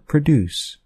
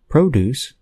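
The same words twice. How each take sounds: First: The stress is on the second syllable. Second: The stress is on the first syllable. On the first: It is a verb meaning to make something. "in the verb produce, the stress is on the second syllable of the word" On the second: It is a noun meaning fruits or vegetables. "in the noun produce, the stress is on the first syllable of the word"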